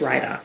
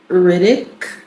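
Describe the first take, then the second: First: The first syllable sounds like 'rye'. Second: The first syllable sounds like 'rid'. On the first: "like rye bread dog" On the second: "Some people say that"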